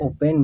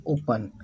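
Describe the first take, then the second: First: "ओपन" with an 'e' in the second syllable; open as O-pen. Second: "ओपन" with a short 'uh' in the second syllable; open as O-pun. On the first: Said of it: "कुछ लोग ओपन भी पढ़ते हैं". ("ओपन" में 'पेन' बोलें) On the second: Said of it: "इसको पढ़ते हैं ओपन". ("ओपन" में 'पन' बोलें) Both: Shown as a demonstration.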